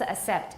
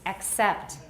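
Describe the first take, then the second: First: There is no k sound before the s. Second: A k sound comes before the s. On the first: The speaker calls it wrong. "不是 accept" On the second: The speaker calls it right. "it's accept"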